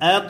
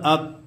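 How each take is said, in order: First: The final consonant is released with an echoing bounce. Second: The final consonant stops flat with no bounce. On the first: The speaker calls it right. "প্রতিধ্বনি আওয়াজ হবে" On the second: The speaker calls it wrong. "এইভাবে যদি বলেন ... সহি হবে না"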